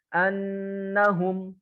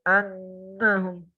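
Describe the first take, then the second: First: The nasal hum comes through the nose clearly. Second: The nasal hum is blocked and muffled.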